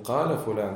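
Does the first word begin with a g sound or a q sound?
q sound. The first word begins with a q sound. "они говорят не каля фулян"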